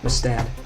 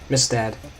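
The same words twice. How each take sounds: First: The stress is on the second syllable. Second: The stress is on the first syllable. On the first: The speaker calls it wrong. "not Mistad" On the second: The speaker calls it right. "you emphasize the first half"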